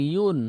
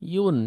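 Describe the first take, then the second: First: The syllable starts with a 'y' sound, 'yun'. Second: The same.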